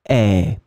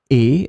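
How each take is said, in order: First: The vowel is more open than in et. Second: The vowel is closed, like in et. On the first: "pronounce it a bit more open, because this is the way it should be pronounced" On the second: "people can pronounce it the same way"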